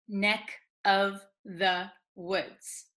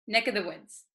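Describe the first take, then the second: First: The phrase is spoken very slowly. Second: The phrase is spoken very quickly. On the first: "if we speak very, very slowly" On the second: "if you say it very quickly"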